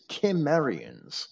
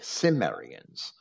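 First: The first sound is a hard K. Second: The first sound is a soft S. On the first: The speaker calls it right. "but the original is" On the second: The speaker calls it wrong. "pronounce that Latin C as a soft C, like an S"

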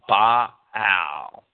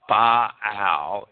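First: The word is split into two separate syllables. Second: The same.

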